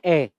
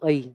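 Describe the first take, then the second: First: The vowel stays one steady sound. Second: The vowel glides like 'eye'. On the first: The speaker calls it right. "जबकि इसका उच्चारण ए आई की तरह होता है" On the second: The speaker calls it wrong. "इसको आप उच्चारण कर देते हो आई"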